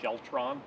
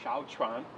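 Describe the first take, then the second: First: The first syllable sounds like 'shel'. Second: The first syllable sounds like 'shao'. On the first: The speaker calls it wrong. "It's sometimes mispronounced as something like Sheltron" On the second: The speaker calls it right. "but it's Shaochuan"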